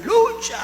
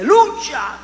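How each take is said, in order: First: Much higher squealed Lucha, a worshipper's exclamation; mock hallelujah cry. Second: A higher, louder cry of Lucha, like a fervent worshipper; mock hallelujah cry. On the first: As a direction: pitch Lucha way up like an ecstatic shout of praise. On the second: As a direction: call out Lucha like a churchgoer praising. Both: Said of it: "Le daba los aleluyas así".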